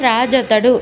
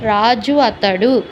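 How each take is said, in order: First: The two words run together into one word. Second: The two words are said separately, vowels kept. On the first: The speaker calls it right. "రాజు అతడు అని పలకడం సులభం" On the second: The speaker calls it wrong. "రాజు అతడు అనే కంటే"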